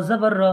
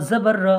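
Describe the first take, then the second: No difference in how they are said.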